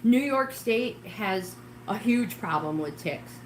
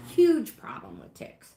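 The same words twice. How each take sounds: First: Said in the usual way. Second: Huge pushed higher and louder, slow; emphatic repeat. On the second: Shown as a demonstration. Warning New York viewers, repeating Huge louder and slower. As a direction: lean hard on Huge as you repeat it.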